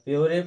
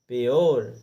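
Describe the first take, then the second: First: It has a y glide and a final vowel. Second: It has a y glide and ends in r. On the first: The speaker calls it wrong. "या प्योरे पढ़ते, तो नहीं" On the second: The speaker calls it right. "पा में यो लगा करके और रा का उच्चारण कर देंगे सीधा"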